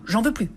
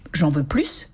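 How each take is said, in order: First: The final s of plus is silent. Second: The final s of plus is pronounced. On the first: The speaker wants no more. "ou bien son opposé, plus du tout" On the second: The speaker wants more. "plus peut signifier davantage"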